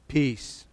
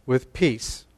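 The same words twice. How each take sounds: First: "Peace." set apart on its own, softer, with a falling close; emphasized word. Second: Said in the usual way. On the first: Shown as a demonstration. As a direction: lift out "Peace." and let it land quietly. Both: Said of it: "Just emphasize that word a second".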